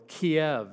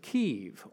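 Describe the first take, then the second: First: The city name is said the familiar older way. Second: The city name is said the newer way.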